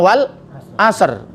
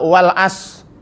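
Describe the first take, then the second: First: The word ends with a clear r sound. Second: The word ends without any r sound. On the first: The speaker calls it right. "Harusnya wal asr" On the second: The speaker calls it wrong. "Masa wal as?"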